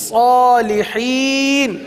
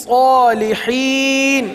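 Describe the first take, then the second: Both takes have the same delivery.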